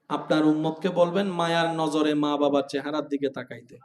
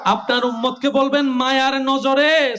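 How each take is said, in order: First: It is said at normal, softer volume. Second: It is said louder than before.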